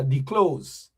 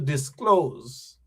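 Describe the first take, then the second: First: The first syllable is 'dee' with no s. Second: The first syllable is 'dis' with an s. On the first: The speaker calls it wrong. "The man said declose" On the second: The speaker calls it right. "As opposed to disclose"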